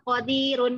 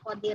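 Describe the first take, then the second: First: The word ends with a vowel and n. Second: The word ends with a bare r sound. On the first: This is the full written form. "tulisannya itu syai'in qadirun" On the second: This is how it is read when stopping. "kita bacanya qadir"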